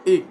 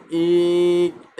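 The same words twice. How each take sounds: First: ইক said short, vowel cut off by the final k; short closed syllable. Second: ইক with a long held iiii before the k; over-stretched vowel. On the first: Teacher gives a closed syllable example, ইক cut short. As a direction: stop ইক at once, no stretching. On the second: Teacher shows the pull it lacks, ইক wrongly drawn out. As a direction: drag out the vowel of ইক. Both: Shown as a demonstration. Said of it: "এরকম টান নেই".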